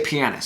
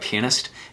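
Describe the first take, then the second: First: The word begins like the word piano. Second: The word begins like the word penis. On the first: The speaker calls it right. "The instrument is called the piano" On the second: The speaker calls it wrong. "make it sound almost identical to penis"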